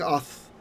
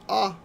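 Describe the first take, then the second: First: The syllable ends with a th sound. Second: The syllable ends on a bare vowel. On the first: This is the older ancient form. "people just got tired of saying ath" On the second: This is the later worn-down form. "they just dropped the th altogether and they said ah"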